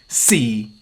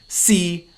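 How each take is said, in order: First: The syllable is said in the fourth tone. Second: The syllable is said in the sixth tone. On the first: It means time. "C means time" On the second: It means be or is. "C means be or is"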